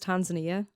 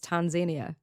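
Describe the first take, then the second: First: It is said in the speaker's own usual way. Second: It is said the way Kenyan colleagues pronounce it. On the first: "I would always pronounce this as Tanzania" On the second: "they pronounce it as Tanzania and they reckon that that's the way it's supposed to be pronounced"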